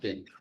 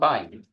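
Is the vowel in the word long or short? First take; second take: short; long. First: The vowel is a short 'i' sound. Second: The vowel is a long 'eye' sound. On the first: It sounds like a basket or recycling bin. The speaker calls it wrong. "and not bin" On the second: It is short for binary. The speaker calls it right. "call it bind"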